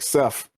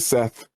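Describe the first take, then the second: First: The name ends with an f sound. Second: The name ends with a th sound. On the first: "with an F it's like Seth" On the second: "you never say Seth"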